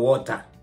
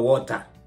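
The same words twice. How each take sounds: First: It is said in a Kenyan English accent. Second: It is said in a Kenyan English accent.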